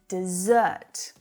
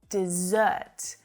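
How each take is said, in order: First: The stress is on the second syllable. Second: The stress is on the second syllable.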